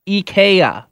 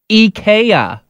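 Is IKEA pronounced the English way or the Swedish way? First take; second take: Swedish; Swedish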